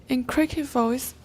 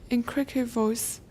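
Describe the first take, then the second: Both takes have the same delivery.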